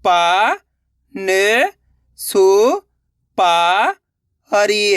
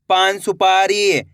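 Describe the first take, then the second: First: पान सुपारी in slow, separate syllables. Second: पान सुपारी joined and slow; blended word. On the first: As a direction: sound out पान सुपारी with long gaps. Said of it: "एक अक्षर का उच्चारण करना है". (पान सुपारी का एक-एक अक्षर अलग) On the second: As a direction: say पान सुपारी in one unbroken go. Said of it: "तो मिलके बन जाएगा". (पान सुपारी मिलाकर, धीरे से) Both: Shown as a demonstration.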